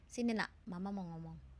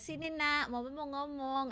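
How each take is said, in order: First: It sounds calm, low and firm. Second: It sounds soft and smiling, not firm.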